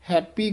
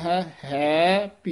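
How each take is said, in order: First: The words merge into one with a p sound. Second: The two words are said apart. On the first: The speaker calls it wrong. "कई अनजान happy कह जाते हैं, पप्पा ला जाते हैं" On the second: The speaker calls it right. "वख शुद्ध उच्चारण है"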